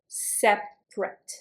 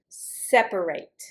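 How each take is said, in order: First: The word is said with two syllables. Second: The word is said with three syllables. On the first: It describes things as distinct. "separate is the adjective, and you pronounce it in two syllables" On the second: It is the action of dividing things. "Separate is the verb, and you pronounce it separate"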